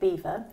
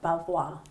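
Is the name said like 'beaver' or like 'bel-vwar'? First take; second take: beaver; bel-vwar. First: The name sounds like the word 'beaver'. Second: The name is said as 'bel-vwar'. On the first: This is how the speakers themselves say it. "So we're saying Beaver" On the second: This is how some other people say it. "some people say Belvoir"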